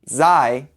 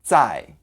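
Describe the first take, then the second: First: It is longer, with a softer English-like consonant. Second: It is shorter, with a more explosive consonant. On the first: The speaker calls it wrong. "which is how you would say it in English" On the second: The speaker calls it right. "Notice that it's a shorter sound"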